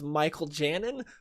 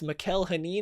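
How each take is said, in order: First: The surname begins with a J sound. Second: The surname begins with an H sound. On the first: The speaker calls it wrong. "I thought it was" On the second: The speaker calls it right. "is how he pronounced it"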